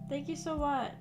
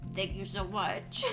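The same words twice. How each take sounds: First: It is said in a warm, grateful tone. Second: It is said in a deep, angry tone. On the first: "I'm so appreciative" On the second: "I just kind of said that in a deep voice"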